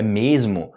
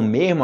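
First: Said in the usual way. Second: "mesmo" with a breathy R for the S, "mermo"; colloquial mesmo. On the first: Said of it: "é mesmo, na verdade". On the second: Shown as a demonstration. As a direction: say "mesmo" as "mehmo". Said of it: "Quando eles falam mesmo aqui".

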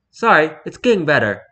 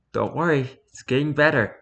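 First: Put-on stereotypical posh English accent, lightly done; mock posh English apology. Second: Put-on softly spoken American accent; American-accented sleepy reassurance; heavy American accent. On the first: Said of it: "in a stereotypical posh English accent". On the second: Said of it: "in a heavy American accent".

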